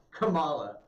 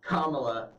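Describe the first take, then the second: First: Kamala with the stress on the second syllable, kuh-MAH-luh; correct pronunciation. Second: Kamala with the stress on the first syllable, KA-ma-la; deliberate mispronunciation. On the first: Host corrects himself on the senator's name, Kamala said with the middle syllable stressed. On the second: Host mocks the senator's name, deliberately wrong stress on Kamala. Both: Shown as a demonstration. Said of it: "it's Kamala Harris, not Kam".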